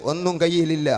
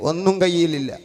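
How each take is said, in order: Both takes have the same delivery.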